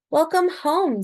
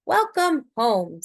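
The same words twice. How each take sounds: First: Lightly voiced mother, a touch higher and louder; hint of a mother's cheerful welcome. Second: Lightly voiced father, slower and drawn out; hint of a fatherly, unhurried greeting; father's welcome. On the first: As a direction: greet her child home as a gentle mum. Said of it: "said her mother". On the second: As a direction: welcome her home as a steady dad. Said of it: "said her father". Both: A narrator's reading.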